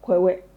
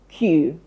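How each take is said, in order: First: It starts with 'kw', like spelled 'kweh-weh'. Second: It is one syllable, sounding like 'kyoo'. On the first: The speaker calls it wrong. "they went Kwewe" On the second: The speaker calls it right. "We say Q"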